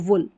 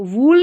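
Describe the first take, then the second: First: The vowel is a short u sound. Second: The vowel is a long oo sound. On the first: The speaker calls it right. "छोटा ऊ" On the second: The speaker calls it wrong. "वूल नहीं पढ़ना इसको"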